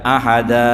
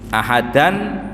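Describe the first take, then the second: First: The word ends in a vowel, no final n. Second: The word ends with a sounded final n. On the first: "dibacanya ahada"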